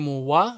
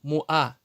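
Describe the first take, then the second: First: The vowels are joined by a w sound. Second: The vowels are separated by a glottal stop. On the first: The speaker calls it wrong. "Не муа. Многие делают ошибку" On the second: The speaker calls it right. "Ва не читается, хамза читается"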